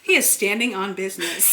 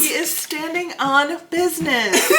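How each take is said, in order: First: He is standing on business, every syllable crisp and separate; over enunciating. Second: He is standing on business, each syllable enunciated through laughter; He is standing on business, proper and precise, laughing; over enunciating. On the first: Retold or imitated. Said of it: "she'll say it in the most proper way". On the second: Shown as a demonstration. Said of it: "You enunciate every, every syllable".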